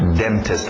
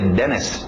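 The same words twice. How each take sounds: First: The T sound in the middle is pronounced. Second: The T sound in the middle is dropped.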